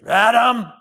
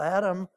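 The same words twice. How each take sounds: First: The name is called out in an angry tone. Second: The name is called out in a sad, longing tone. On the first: The caller is mad at the person. The speaker calls it wrong. "tried to make God mad at us, and he'd sound like this" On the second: The caller misses the person and is hurt. The speaker calls it right. "I think it was a plaintive call"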